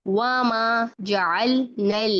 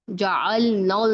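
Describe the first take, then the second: First: जअलनल ending in light "el, nel"; spread thin lam. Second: जअलनल as heavy "ol, nol"; thick lam. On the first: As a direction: recite slowly, spreading both Ls in जअलनल. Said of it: "लाम को मोटा नहीं करना". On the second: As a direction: round both Ls in जअलनल. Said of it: "जअलनल नहीं करना". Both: Shown as a demonstration.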